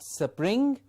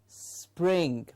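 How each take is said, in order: First: An extra vowel splits the s from the p. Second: The s runs straight into the p. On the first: The speaker calls it wrong. "So it was not spring" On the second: The speaker calls it right. "it was spring"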